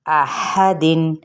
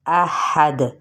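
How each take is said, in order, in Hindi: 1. द के बाद स्वर और न आता है। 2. आख़िरी द पर कलकला होता है।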